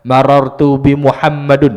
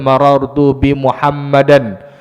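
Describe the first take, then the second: First: The name ends with a u-vowel plus n. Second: The name ends with an a-vowel plus n. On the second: "Tak boleh baca"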